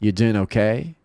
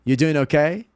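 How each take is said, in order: First: Restrained "You doing okay?", rising at the end; low-key check-in. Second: Higher-pitched, rising "You doing okay?"; casual greeting, lifted pitch; upbeat casual check. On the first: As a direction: ask it in an understated tone. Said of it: "Ou pode ser assim". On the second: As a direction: ask it brightly, rising on "okay". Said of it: "Ela pode ser assim também". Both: Shown as a demonstration.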